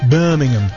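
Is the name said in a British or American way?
British. The name is said in a regal British way. The speaker calls it right. "Pretty regal sounding"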